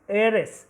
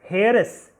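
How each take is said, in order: First: The word begins with a vowel, no h. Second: The word begins with an audible h sound. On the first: The speaker calls it right. "H is is silent" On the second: The speaker calls it wrong. "it is not pronounced as heiress"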